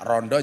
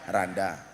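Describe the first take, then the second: First: It has the Malang O vowels. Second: It has the Ngapak A vowels.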